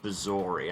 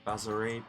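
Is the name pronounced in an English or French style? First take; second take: English; French. First: The name is pronounced in an English style. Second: The name is pronounced in a French style. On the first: This is how the game pronounces it. The speaker calls it wrong. "they say Galeb Bazori" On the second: This matches the character's French origin. The speaker calls it right. "it should really be Bazori"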